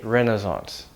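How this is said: It is said with an American pronunciation. "Americans say"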